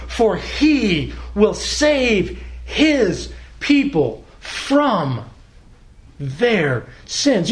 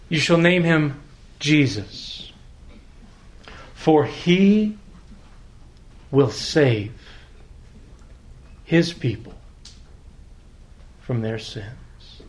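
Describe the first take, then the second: First: Very slow, leaning on "his" in "his people"; stress on his. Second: Each word set apart by long pauses; slow, word by word. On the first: Preacher shows the congregation Whitney's word-by-word method, stressing "his". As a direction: press hard on "his" in "his people", then let "sins" rise. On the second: Preacher reads the promise to his church, slowly, word by word. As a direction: let every word of the verse land slowly on its own. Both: Shown as a demonstration. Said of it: "emphasize the next word and listen to it".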